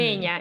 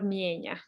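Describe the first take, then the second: First: The first vowel is a plain e sound. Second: The first vowel is an ije sound.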